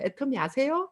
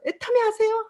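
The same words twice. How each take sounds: First: Said in the usual way. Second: 애터미 아세요 asked high and bright, 애터미 punched; bold pitch. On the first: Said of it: "항상 하잖아요". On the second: Retold or imitated. Proudly pitching at the checkout in front of partners, bold and high. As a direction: ask it boldly, much higher, showing off the catalog. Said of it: "활짝 펼쳐서".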